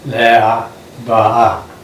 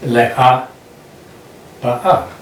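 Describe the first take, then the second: First: The vowels run together without glottal stops. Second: Glottal stops break the vowels in both words. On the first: This is how people speak today. "Israelis are going to be without the glottal stop" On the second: This is the historic pronunciation. "we can demonstrate the glottal stop of aleph"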